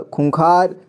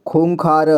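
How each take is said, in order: First: Said in the usual way. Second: खूंखार split as "khoon-khaa-ra"; खूंखार read piece by piece; sounded out. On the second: Shown as a demonstration. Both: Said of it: "इसे संजय पढ़ेंगे".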